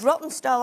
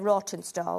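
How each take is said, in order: First: The first syllable does not sound like 'raw'. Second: The first syllable sounds like 'raw'. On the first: The speaker calls it right. "It's it's Rottenstall" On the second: The speaker calls it wrong. "I always say it wrong. ... it's raw for me"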